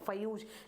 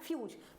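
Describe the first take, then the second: First: The first consonant carries a full vowel before 'yuz'. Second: The first consonant is clipped short into 'yuz'. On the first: The speaker calls it wrong. "अगर हम इसको इस तरह से लिखेंगे तो क्या हो गई फयूज" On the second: The speaker calls it right. "फा को ये बहुत छोटे तरीके से यानी छोटा बोला गया है"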